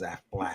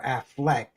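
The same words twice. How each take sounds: First: "Affleck" said as Aflac, ending -ack; "Affleck" as AF-lack; insurance company pronunciation. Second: "Affleck" with a clear -eck ending; "Affleck" as AF-leck; actors' Affleck pronunciation. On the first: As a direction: say "Affleck" with an A in both syllables. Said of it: "The insurance company". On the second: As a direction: say "Affleck" with the E of "neck". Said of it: "The actor, the brothers are Affleck". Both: Shown as a demonstration.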